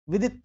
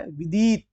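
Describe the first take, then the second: First: विदित as "vidit", both vowels quick; short i. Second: विदित as "videet"; wrong long ee. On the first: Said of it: "विदित सही होता है". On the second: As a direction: stretch the second vowel of विदित. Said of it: "ये लिखा है विदित". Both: Shown as a demonstration.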